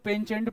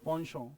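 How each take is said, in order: First: It is said with a ch sound and a final t. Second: It is said with a sh sound and a nasal ending. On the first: The speaker calls it wrong. "वो सही pronunciation नहीं है" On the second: The speaker calls it right. "एच को हटाओ, पॉन्शों"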